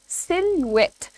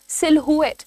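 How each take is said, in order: First: No h sound follows the l. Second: An h sound follows the l. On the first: The speaker calls it right. "The pronunciation is सिलुएट" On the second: The speaker calls it wrong. "इसको लोग काफी ज्यादा mispronounce करते हैं, वो कहते हैं सिलहुएट"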